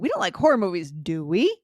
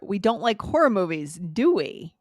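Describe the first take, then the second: First: It sounds like a genuine question seeking an answer. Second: It sounds like a comment, not a real question. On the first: The speaker really wants to know. "a different intonation if you were actually asking the question" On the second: The speaker is remarking on what is obvious. "you're not asking the question"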